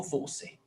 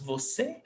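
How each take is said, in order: First: Second "você" stressed on VO, VÓ-ce; stress on first syllable. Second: First "você" stressed on final CÊ; stress on last syllable. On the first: Teacher testing the wrong option aloud, "você" stressed on VO. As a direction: drop the CÊ of "você", weight on VO. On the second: Teacher thinking aloud how it's pronounced, "você" stressed on CÊ. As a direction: try "você" with the weight on CÊ, questioning. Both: Shown as a demonstration. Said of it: "This is pronounced você ou você?".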